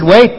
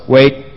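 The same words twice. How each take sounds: First: Said in the usual way. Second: A low, firm word like ordering a sheepdog to stay; sheepdog command. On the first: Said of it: "he said". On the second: Retold or imitated. Jesus telling the eager disciples to stay put, like a sheepdog command. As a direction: hold them back with a low command, like to a dog. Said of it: "It's like one of those sheepdogs".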